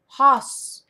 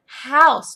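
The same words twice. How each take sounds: First: House mispronounced with a flattened vowel, nearly "hoss"; learner's slip on House, the glide dropped; said wrong. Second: House said loud and higher with a full "ow" glide; emphatic corrective House with the whole diphthong; correcting pronunciation. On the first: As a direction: say House wrongly, closer to "hahss". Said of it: "they'll say it wrong". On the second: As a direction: model House clearly, "howss", falling at the end. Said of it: "So say". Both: Shown as a demonstration.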